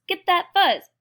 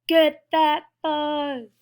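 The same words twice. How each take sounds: First: Loud, high call to grab; excited command. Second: Slow, loud, stretched-out yell; drawn-out battle cry. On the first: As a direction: urge them on, high and loud. Acted fight over fuzz. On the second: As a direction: stretch every word into a charge. Acted fight over fuzz, drawn out. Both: Acted.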